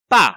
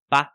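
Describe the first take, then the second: First: Loud pa with a sharp fall; strong, decisive pa. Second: Unstressed pa, skimmed over; barely touch pa, let it pass; light neutral pa. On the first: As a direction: hit pa and finish it cleanly. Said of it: "mạnh, dứt khoát". (pa mạnh, dứt khoát) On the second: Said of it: "nhẹ nhàng lướt qua thôi". (pa nhẹ nhàng lướt qua) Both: Shown as a demonstration.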